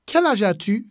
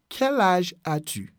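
First: Said in the usual way. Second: "Quel âge as-tu" spaced word by word; measured teaching repeat. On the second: Shown as a demonstration. Teacher showing the question for someone close, measured teaching repeat. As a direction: ease through each word for learners.

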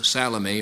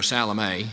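First: Salome said one common way; one pronunciation. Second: Salome with a different final vowel; alternative pronunciation. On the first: Preacher offering ways to say a woman's name, first pronunciation of Salome. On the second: Preacher offering ways to say a woman's name, alternative pronunciation of Salome. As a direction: say Salome the second of two ways. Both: Shown as a demonstration. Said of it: "depending on how you pronounce it".

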